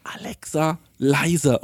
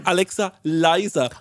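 First: Said in the usual way. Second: Tired repeat, slowly; slow, drawn-out command. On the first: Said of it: "Und dann sag ich". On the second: Retold or imitated. Asking Alexa for the fifth time, slow and drawn-out. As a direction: stretch each word slowly. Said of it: "muss ich so fünfmal sagen".

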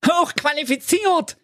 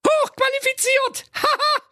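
First: Very high, hooting mockery of the word; mocking snort. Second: Extremely high squeal breaking into laughter; shrieking laughter. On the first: Friends mocking the donkey's boast, high hooting squeal. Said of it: "prusteten immer wieder". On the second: Acted. Friends mocking the zebra, shrieking with laughter. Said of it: "vor Lachen und prusteten".

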